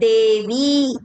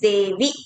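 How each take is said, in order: First: The final vowel is drawn out long. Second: The final vowel is kept short. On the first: The speaker calls it wrong. "Here it is not Devi" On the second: The speaker calls it right. "it is a Hraswa Matra"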